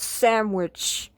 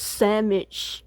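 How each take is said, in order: First: "sandwich" with a clear w, sand-wich; correct sandwich. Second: "sandwich" said as sammich, no w sound; mispronounced sandwich. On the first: Correcting Melissa, "sandwich" said sand-wich with the w. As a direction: sound out the w in "sandwich" properly. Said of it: "No, it's pronounced sandwich". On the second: Melissa insisting her own way, "sandwich" said as sammich. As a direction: drop the w in "sandwich", sam-itch. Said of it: "to me, it's pronounced sandwich". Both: Shown as a demonstration.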